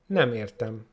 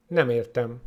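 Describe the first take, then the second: No difference in how they are said.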